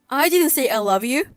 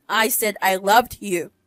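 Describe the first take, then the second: First: Said in the usual way. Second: Loved pointedly set against love; stress on loved. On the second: Acted. Lawyer correcting her ex-boyfriend, stressing loved. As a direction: lean on loved to correct the tense. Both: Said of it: "Past tense".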